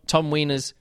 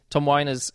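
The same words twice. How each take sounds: First: Weiner's said as WEE-ners; mispronounced name. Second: Weiner's said as WHY-ners; corrected name. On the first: Reviewer discussing the narrator's accents, Weiner's slipped into WEE-ners. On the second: Reviewer correcting the narrator's name, Weiner's as WHY-ners. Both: Real, not acted.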